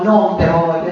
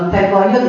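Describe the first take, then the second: First: The first word non is said in full. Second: The first word is clipped to a short n. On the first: This is not the local way of saying it. "loro mica dicono" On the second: This is how the local people say it.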